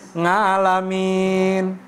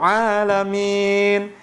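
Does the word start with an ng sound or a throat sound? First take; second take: ng sound; throat sound. First: The word starts with an ng sound. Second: The word starts with a throat consonant. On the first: The speaker calls it wrong. "nggak bisa-bisa" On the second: The speaker calls it right. "Dikasih tahu alamin"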